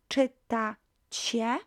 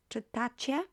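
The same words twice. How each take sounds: First: "Czytacie" drawn out in separate syllables; slow syllable-by-syllable model. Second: Said in the usual way. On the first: Shown as a demonstration. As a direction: model "Czytacie" slowly, rising at the end. Teacher models the new verb form.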